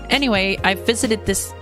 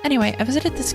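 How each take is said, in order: First: It is said in a natural, own voice. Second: It is said in a put-on character voice. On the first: The speaker calls it wrong. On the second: The speaker calls it right.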